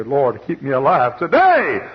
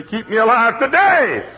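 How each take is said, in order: First: Loud, slow earnest plea; pleading prayer. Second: High, loud, slow pleading cry; crying prayer. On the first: Widow praying to God for one day, loud plea. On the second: Widow crying out to God, high and loud. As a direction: cry out to God for one more day. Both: Retold or imitated.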